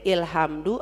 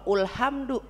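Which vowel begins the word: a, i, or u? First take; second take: i; u. First: The word begins with an 'i' vowel. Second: The word begins with a 'u' vowel.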